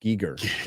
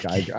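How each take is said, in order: First: Giger with a hard G and long E, GEE-ger; Giger, GEE-ger, as the artist said his own name. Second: Geiger with a long I sound, GUY-ger; Geiger, GUY-ger, the way he's always said it. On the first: Corrected to the artist's own way, Giger as GEE-ger. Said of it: "say Giga". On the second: Sticking to his own habit, Geiger as GUY-ger. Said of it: "I say Geiger". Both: Shown as a demonstration.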